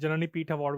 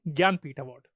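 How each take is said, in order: First: The first part is said as 'janani'. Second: The first part is said as 'gyaan'. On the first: The speaker calls it wrong. "मैंने जननी पीठ award वैसे बोल दिया था, मैंने जल्दबाजी में" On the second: The speaker calls it right. "पर एक्चुअली इसका नाम है"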